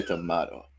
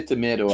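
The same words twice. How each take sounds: First: "tomato" with an "ah" middle; tomato with a long open "ah"; my pronunciation. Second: "tomato" with an "ay" middle; tomato rhyming with potato; your pronunciation. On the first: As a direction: say tomato as "tuh-MAH-do". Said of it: "I say tomato". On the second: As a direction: say tomato as "tuh-MAY-do". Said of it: "you say tomato". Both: Shown as a demonstration.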